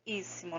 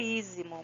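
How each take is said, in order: First: The middle consonant is a hissing s sound. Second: The middle consonant is a buzzing z sound. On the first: This is how the word is said in Spanish. "mas é espanhol, tá? Por isso, íssimo" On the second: This is how the word would be read in Portuguese. "se fosse em português, seria ísimo"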